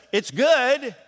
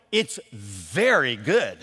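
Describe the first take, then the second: First: High, thin it's good; weak reply. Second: Slow, drawn-out "very good" with relish; savoring praise. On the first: Contrasting the weak answer to the cook, high and thin. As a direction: toss off a half-hearted "good". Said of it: "It's not just". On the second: Answerer praising the cook's dish, slow and savoring. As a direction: linger on "very" like it's delicious. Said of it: "the pinnacle of good answers". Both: Shown as a demonstration.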